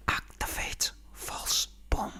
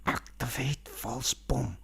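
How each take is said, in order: First: Slow breathy whisper. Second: Slow, breathy whisper; panicked whisper. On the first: Shown as a demonstration. Comedian replaying his favourite gag, whispered slow. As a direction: savour it secretly. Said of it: "repeats the gag". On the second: Retold or imitated. Banana whispering to his suit in the dark, slow. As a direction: hiss it so Mango won't hear. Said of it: "he's going".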